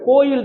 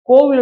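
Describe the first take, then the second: First: The middle glide is a y sound. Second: The middle glide is a v sound. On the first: This is the literary form. "செய்யுள் வழக்கு" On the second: This is the everyday spoken form. "பேச்சு வழக்கு"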